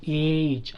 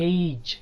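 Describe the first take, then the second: First: ఏజ్ with one drawn-out "ee" as in Telugu ఏ; single long vowel. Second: ఏజ్ as "eh-ij"; two vowel sounds in ఏజ్; diphthong glide. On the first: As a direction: say ఏజ్ as "ehj", no glide. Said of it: "అనకూడదు". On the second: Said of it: "అనాలి". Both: Shown as a demonstration.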